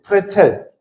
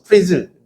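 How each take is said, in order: First: It is pronounced the German way, ending in 'chel'. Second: It is pronounced the English way, ending in 'zel'. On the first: "원래 발음은 브레첼 혹은 프레첼, 독일식으로는" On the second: "그냥 영어식으로 넘어가면서"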